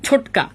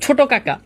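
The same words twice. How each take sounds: First: ছোটকা run together with only one "ka"; syllable dropped. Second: Said in the usual way. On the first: Shown as a demonstration. Teacher showing students a dropped sound, contracted pronunciation. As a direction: say ছোটকা short, the first "ka" swallowed. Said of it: "এখানে একটা এসে লোপ পাইছে". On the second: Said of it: "ছোট কাকা থেকে".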